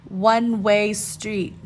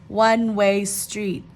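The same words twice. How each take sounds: Both takes have the same delivery.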